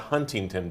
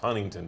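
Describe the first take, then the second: First: The T in the middle is clearly pronounced. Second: The T in the middle is dropped. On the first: The speaker calls it wrong. "It's not" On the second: The speaker calls it right. "You have to say it without the T"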